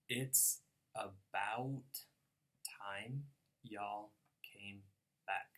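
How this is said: It has a Northern American accent with gliding vowels. "if I were going to say it in my American accent"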